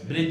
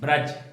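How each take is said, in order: First: The vowel after 'br' sounds like 'i'. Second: The vowel after 'br' sounds like 'a'. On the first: The speaker calls it wrong. "ब्रिज नहीं" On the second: The speaker calls it right.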